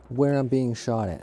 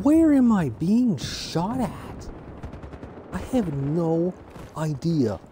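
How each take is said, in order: First: Said in the usual way. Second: Much higher, slow, stretched-out confusion; exasperated whine. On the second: Real, not acted. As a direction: whine it up high like you can't believe it. Getting shot by unseen enemy.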